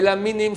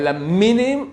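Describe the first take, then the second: First: The M sound is single and short. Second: The M sound is doubled and lengthened. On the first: It means stringed instruments, as in the psalm. The speaker calls it wrong. "sans accent dans le M" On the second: It means the heretics, as the blessing requires. The speaker calls it right. "avec un accent dans le M"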